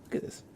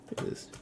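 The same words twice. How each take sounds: The two takes are said the same way.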